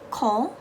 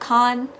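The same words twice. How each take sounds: First: The syllable is soft and nasal. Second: The syllable is plain, not nasal. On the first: The speaker calls it right. "a very soft, a very um, nasally con" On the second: The speaker calls it wrong. "instead of"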